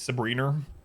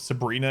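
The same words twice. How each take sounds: First: An R sound is added at the end. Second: It ends in a plain vowel, no R.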